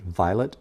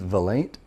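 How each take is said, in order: First: The name is said like the word violet. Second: The name is said with two syllables, Vy-late. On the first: The speaker calls it wrong. "I mispronounced it at first. I said Violet" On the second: The speaker calls it right. "Do you mean Vilate?"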